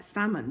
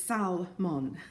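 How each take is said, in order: First: It is pronounced like the fish word salmon. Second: It is pronounced unlike the fish word salmon. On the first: "Sounds a bit like salmon" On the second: "But it's Salmon"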